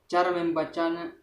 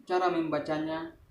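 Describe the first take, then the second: No difference in how they are said.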